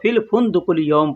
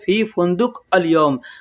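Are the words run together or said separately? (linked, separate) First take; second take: linked; separate. First: The words are run together into one flow. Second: Each word is said separately, as written. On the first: "जब पढ़ेंगे तो फिल फुंदुकुल यौम पढ़ेंगे" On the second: "अरबी में लिखेंगे"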